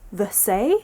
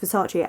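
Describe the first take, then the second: First: The name is sounded out exactly as spelled. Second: The name is said in its usual pronunciation. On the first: The speaker calls it wrong. "I need to pronounce the letters" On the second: The speaker calls it right. "Obviously it's Versace"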